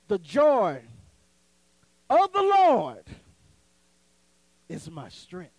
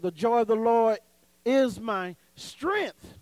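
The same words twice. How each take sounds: First: The stress falls on the words of the Lord. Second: The stress falls on the word strength. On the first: "So you got to put it of the Lord" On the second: "So you're saying strength"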